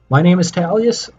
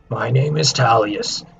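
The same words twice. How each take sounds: First: It is said in the speaker's normal voice. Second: It is said in a put-on raspy character voice.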